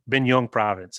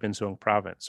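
First: Binh Duong is said with a southern Vietnamese accent. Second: Binh Duong is said without a southern Vietnamese accent.

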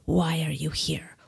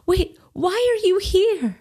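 First: It is said in an adult voice. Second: It is said in a childish voice.

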